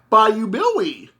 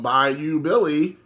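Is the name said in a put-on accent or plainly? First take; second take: put-on accent; plainly. First: It is said in an odd, put-on accent. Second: It is said plainly in the speaker's normal accent. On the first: This imitates how the video game announced the name. "the video game was always like" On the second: This is the ordinary way to say the name. "instead of going"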